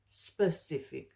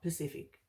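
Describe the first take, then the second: First: The word begins with an s sound. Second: The word begins without an s sound. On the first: The speaker calls it right. "there's an S there" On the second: The speaker calls it wrong. "not Pacific"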